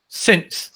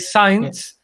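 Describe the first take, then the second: First: The vowel is a short 'ih'. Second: The vowel sounds like 'eye'. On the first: The speaker calls it right. "but in this case, it's since" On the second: The speaker calls it wrong. "we say science because we kind of have um, uh, uh, interiorized uh, that we have to say I"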